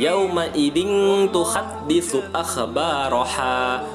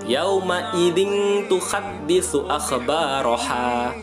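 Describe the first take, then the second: No difference in how they are said.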